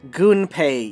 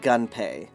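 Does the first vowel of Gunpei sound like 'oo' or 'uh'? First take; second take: oo; uh. First: The first vowel is an 'oo' sound. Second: The first vowel is an 'uh' sound. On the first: The speaker calls it right. "It's also Gunpei Yokoi" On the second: The speaker calls it wrong. "not Gunpei, because Ganpei would be G A"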